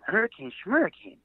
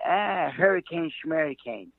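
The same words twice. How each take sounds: First: Incredulous echo. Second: Put-on old Jewish man dismissive. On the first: Retold or imitated. Echoing the old man in disbelief. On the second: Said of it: "like an old Jewish man".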